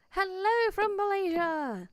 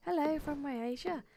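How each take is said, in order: First: Higher, louder, welcoming "Hello from Malaysia"; bright welcome with a falling "hello"; cheery greeting. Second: Said in the usual way. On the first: Shown as a demonstration.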